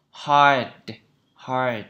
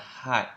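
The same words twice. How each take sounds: First: "Hard" with a curled American R; careful, drawn-out American "Hard", R sounded; American pronunciation. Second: "hard" the British way, no R sound; non-rhotic British "hard", long open vowel; British pronunciation. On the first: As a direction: curl the tongue back on the R in "Hard". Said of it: "Đấy là trong Anh Mỹ". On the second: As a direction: say "hard" as "hahd", R dropped. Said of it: "còn Anh Anh thì chúng ta có thể phát âm là". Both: Shown as a demonstration.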